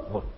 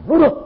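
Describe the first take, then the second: First: Said in the usual way. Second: Eager obeying. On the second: Retold or imitated. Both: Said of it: "Oh, kamu katakan".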